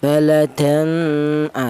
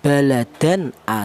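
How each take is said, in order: First: The n sound is blurred into a nasal hum. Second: The n sound is pronounced clearly before the vowel. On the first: The speaker calls it wrong. "Tidak boleh tanwin ini disamarkan ya, seperti ikhfa" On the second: The speaker calls it right. "cara bacanya tanwin ini dibaca jelas"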